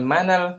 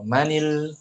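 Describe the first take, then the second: First: The words are linked with an a vowel. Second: The words are linked with an i vowel. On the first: The speaker calls it wrong. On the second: The speaker calls it right.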